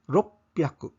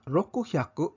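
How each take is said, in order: First: It is contracted to roppyaku with a p sound. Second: It is said in full as roku-hyaku. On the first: The speaker calls it right. "Ropyaku ang paglitok" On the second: The speaker calls it wrong. "Imbes nga"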